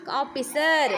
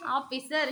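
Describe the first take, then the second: First: Firm, lower-pitched teacher's model; loud model answer. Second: Said in the usual way. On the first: Shown as a demonstration. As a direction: say it out loudly for the pupil to copy. (ಜೋರಾಗಿ ಹೇಳಿಕೊಡುವುದು) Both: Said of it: "ಜೋರಾಗಿ ಹೇಳು".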